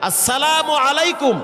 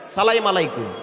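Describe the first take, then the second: First: The first word is said fully as 'assalamu'. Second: The first word is garbled as 'salaim'. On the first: The speaker calls it right. "এখন আমি শুদ্ধ করে আপনাদেরকে একটু সালাম দিচ্ছি" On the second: The speaker calls it wrong. "সালামটাও শিখায় না, কয় সালাইম আলাইকুম"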